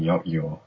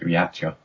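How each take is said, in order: First: The word ends with a 'yaw' sound. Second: The word ends with a 'cha' sound. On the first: "[name] said it rhymes with lockjaw, so I'm guessing yot-yaw" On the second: "I used to pronounce it yatcha"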